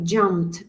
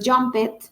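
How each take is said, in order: First: The ending is a t sound. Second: The ending is not a t sound. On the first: The speaker calls it right. "sino jumped con T" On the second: The speaker calls it wrong. "No es jumped"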